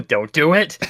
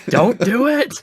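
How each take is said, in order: First: Mild mock warning, lifting at the end; a first playful caution. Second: Much higher, louder mock warning; insistent mock warning. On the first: Guard warning the player off the tree, mock warning. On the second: Guard warning the player more urgently, mock alarm. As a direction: escalate the playful caution, pitched right up.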